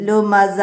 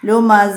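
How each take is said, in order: First: The word ends on a long a vowel. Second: The word ends on a long a vowel.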